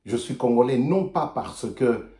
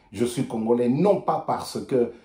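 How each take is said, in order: Both takes have the same delivery.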